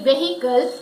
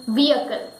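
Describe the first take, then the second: First: "vehicle" as VEH-hi-kul, h sounded; short e and a clear h in "vehicle"; mispronounced vehicle. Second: "vehicle" as VEE-uh-kul, silent h; long e, no h in "vehicle"; correct vehicle. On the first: Teacher shows a common mistake, "vehicle" as VEH-hi-kul. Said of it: "Many people say it vehicle". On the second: Teacher gives the correct pronunciation, "vehicle" as VEE-uh-kul. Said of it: "the correct pronunciation is vehicle". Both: Shown as a demonstration.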